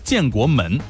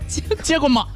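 First: It is said in standard Mandarin pronunciation. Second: It is said in a Shanxi dialect accent.

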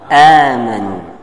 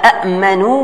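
First: The first syllable has a long open vowel. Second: A second glottal stop closes the first syllable. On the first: "hamzah yang sukun itu merubah untuk menjadi apa? Harf mad" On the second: "kalau ada dua hamzah dalam satu kalimah, yang pertama muharrak, yang dua sukun"

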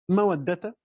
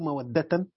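First: The word ends with a single short a vowel. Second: The word ends with a nunated -an ending. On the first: The word is joined to the following word. "بالإضافة فتحة واحدة" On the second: The word stands alone with nunation. "أو تنوين"

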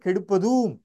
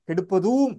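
The two takes are said the same way.

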